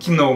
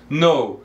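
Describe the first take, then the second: First: The word starts with a k sound. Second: The word starts with an n sound. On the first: The speaker calls it wrong. "Eu vejo muita gente falando know, mas não é know" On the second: The speaker calls it right. "Esse K é mudo, ele é uma letra silenciosa. Então"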